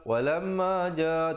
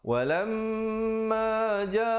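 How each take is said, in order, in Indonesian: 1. Bunyi m diucapkan biasa tanpa dengung yang ditahan. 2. Bunyi m ditahan dengan dengung sengau. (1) "Jangan kita baca walamma ja, walamma ja, tak betul" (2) "dengungkan di situ ... dibacakan empat atau lima harakat"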